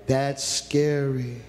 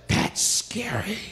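First: Stretched out slow and heavy; slow grave warning. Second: Hushed, breathy whisper, drawn out slowly; whispered warning. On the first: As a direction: drag each word out, ominous. Repeats line slowly. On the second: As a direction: let it fall to a scared whisper. Preacher stresses fear of hardness. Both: Acted.

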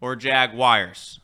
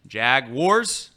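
First: "Jaguars" said jag-wires, slow and falling; "or Jaguars" with jag-wires, drawn out. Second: "Jaguars" said jag-wars, loud, rising; "Jaguars" spoken as jag-wars, questioning. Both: Shown as a demonstration. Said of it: "How do you say".

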